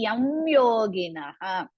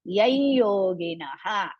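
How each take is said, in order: First: The m sound is kept before yoginaha. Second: The m merges into the following y sound.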